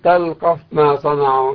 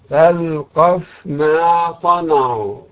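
First: The f sound is hidden and merged into m. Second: The f sound is clearly pronounced before m. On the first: The speaker calls it wrong. "لا تقل" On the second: The speaker calls it right. "فنقول"

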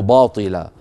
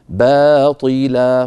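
First: The first b sound is heavy and thick. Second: The first b sound is light and thin. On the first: The speaker calls it wrong. "ولا نقول باطلا" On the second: The speaker calls it right. "العرب لا تفخم الباء أبدا"

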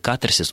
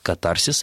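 First: The stress is on the first syllable. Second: The stress is on the second syllable. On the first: This is the modern Russian norm. The speaker calls it right. "ударение должно ставиться на первый слог" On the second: This is the ancient Greek stress. The speaker calls it wrong. "в древнегреческом языке ударение ставилось на второй слог"

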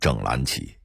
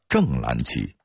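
First: The first syllable has a dipping tone. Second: The first syllable has a falling tone. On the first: The banner is read as the 'whole' banner. The speaker calls it right. "所以整蓝旗必须念整蓝旗" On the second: The banner is read as the 'upright' banner. The speaker calls it wrong. "整蓝旗给念成了正蓝旗"

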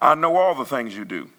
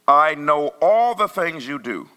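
First: It is read at a faster pace. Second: It is read at a slower pace.

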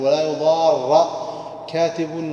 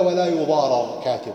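First: The two r sounds merge into one doubled r. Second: The two r sounds are said separately. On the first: The phrase can carry two meanings at once. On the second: The phrase is limited to one meaning.

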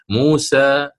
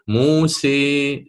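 First: The final vowel is open, with the tongue resting. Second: The final vowel is strongly raised toward i. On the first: "اللسان وكأنه مبسوط من الوسط، وهذا ما يسمى بوضع الراحة" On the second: "الإمالة الكبرى... سيرتفع اللسان أكثر في اتجاه الحنك الأعلى"

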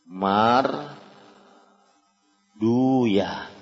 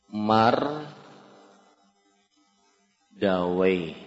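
First: The ending is pronounced as 'duyah'. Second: The ending is pronounced as 'dawayh'. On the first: This is how hadith scholars read the name. "Kalau orang hadis membacanya mar duya" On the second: This is how grammarians read the name. "Kalau orang nahu, orang ahli bahasa, membacanya adalah nahu"

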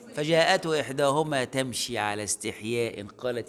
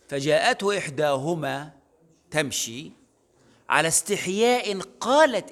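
First: The phrase runs on without a pause around 'ala istihya'. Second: A pause comes after 'tamshi', before 'ala istihya'. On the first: The shyness belongs to both walking and speaking. "اللي عايز الاثنين" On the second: The shyness belongs to her speaking. "قول"

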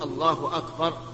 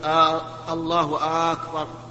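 First: No vowel is drawn out in either word. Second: The opening vowel of akbar is drawn out. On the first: The speaker calls it right. "لا بد أن يقول الله أكبر" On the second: The speaker calls it wrong. "أن يمد الهمزة همزة أكبر"

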